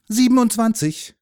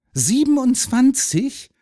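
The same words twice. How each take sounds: First: High, loud statement with falling end; boyish, sure of himself; confident answer. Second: Very high, slow, disbelieving echo; loud, drawn-out amazement; astonished question. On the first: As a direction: announce the answer proudly. Boy proudly gives the answer. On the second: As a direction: repeat it in wide-eyed wonder. Boy amazed at the number. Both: A narrator's reading.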